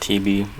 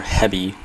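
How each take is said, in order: First: Hebe with a long e, HEE-bee; own pronunciation. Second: Hebby with a short e, HEB-ee; alternative pronunciation. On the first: Vlogger settling on how they say it, own pronunciation of Hebe as HEE-bee. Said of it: "I pronounce it Hebe". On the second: Vlogger unsure of the cabin's name, alternative pronunciation of Hebby as HEB-ee. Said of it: "however you wanna pronounce it". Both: Shown as a demonstration.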